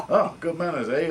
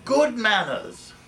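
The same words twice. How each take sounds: First: Said in the usual way. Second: Slow, high, loud prim reply; prim retort. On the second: Retold or imitated. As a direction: deliver it primly and slowly. Viv's deadpan retort.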